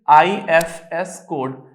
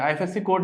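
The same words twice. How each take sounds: First: आईएफएस code spoken very slowly, letter by letter, with no C; teacher carefully giving the right name आईएफएस code; correct term IFS code. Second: आईएफएससी code said quickly with the extra C, as the common mistake; teacher quoting the mistaken आईएफएससी code before correcting it; wrong term IFSC code. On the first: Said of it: "कई लोग आईएफएससी code बोलते हैं". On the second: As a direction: rattle off आईएफएससी code the way many people wrongly say it. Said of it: "आईएफएससी code नहीं". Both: Shown as a demonstration.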